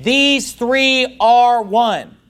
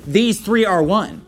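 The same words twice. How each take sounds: First: "These three are one" drawn out word by word; slow, emphatic declaration. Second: Said in the usual way. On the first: Acted. Quotes the verse emphatically.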